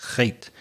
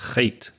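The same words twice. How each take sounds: First: The H is a rough scrape from the throat. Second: The H is a rough scrape from the throat.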